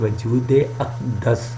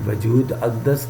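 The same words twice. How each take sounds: First: A short 'e' vowel links the two words. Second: The words are joined with no linking vowel. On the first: The speaker calls it right. "दाल के नीचे ज़ेर है और अलफ के ऊपर ज़बर है" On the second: The speaker calls it wrong. "नहीं पढ़ना"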